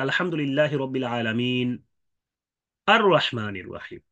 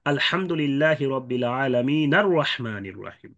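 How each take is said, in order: First: Slow recitation with a pause before আর রহমানির, hamza of আর voiced; recite, stop after আলামিন, then restart with a clear আ in আর রহমানির; stop before ar-Rahman. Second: Slow and run together as আলামিনার রহমানির, no hamza on আর; joined recitation. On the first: Teacher showing students stopping, slow, with the hamza sounded. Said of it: "যেহেতু ওয়াকফ করেছি". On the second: Teacher showing students joining the verses, slow, the hamza dropped. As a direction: carry the nun of আলামিন straight into র রহমানির without a break. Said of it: "কেউ যদি মিলিয়ে পড়ে".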